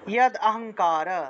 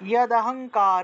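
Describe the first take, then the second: First: The d closes the first word before a new vowel. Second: The d runs straight into the next word. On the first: "দয়ের নিচে হসন্ত দিয়ে অ উচ্চারণ করতে পারেন" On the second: "দ উচ্চারণ করলে অ আসতেছে"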